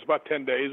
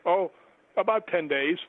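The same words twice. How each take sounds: First: Said in the usual way. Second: Retold reaction, higher with a rising end; dismayed echo. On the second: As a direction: echo it back higher, letting it sink in. He echoes her answer in dismay.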